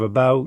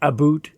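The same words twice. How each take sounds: First: It is said with an American accent. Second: It is said with a Canadian accent.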